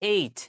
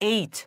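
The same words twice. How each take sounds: First: The final t is released with a puff of air. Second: The same.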